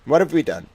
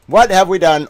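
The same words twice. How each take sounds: First: Said in the usual way. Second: Hammed-up wail at the world; dramatic loud lament. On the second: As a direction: cry it out loud in mock despair. Repeated dramatic lament, louder.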